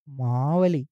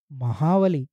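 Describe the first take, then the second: First: మావలి said slowly with long first "maa", no h; name pronounced pointedly. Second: మహావలి with an added "ha": ma-haa-va-li; name expanded pointedly. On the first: Pointing out the name to the listener, pronounced pointedly as మావలి. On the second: Revealing what the name hides, pronounced pointedly as మహావలి. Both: Acted. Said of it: "పేరు గమనించావా?".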